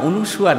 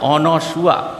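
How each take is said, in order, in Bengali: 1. দ্বিতীয় স্বরধ্বনিটি 'u' ধ্বনি। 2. দ্বিতীয় স্বরধ্বনিটি 'a' ধ্বনি। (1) "না অনুসুয়া না" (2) "কথাটা হচ্ছে অনসুয়া"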